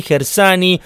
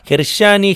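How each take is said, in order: First: "Gersani" offered with a plain s, higher; pronunciación con S. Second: "Gershani" offered with a hushing sh, higher; pronunciación con SH. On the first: ("Gersani" pronunciado con s simple) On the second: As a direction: say "Gershani" with sh after the r. ("Gershani" pronunciado con sonido sh) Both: Shown as a demonstration. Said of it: "cómo es la pronunciación correcta".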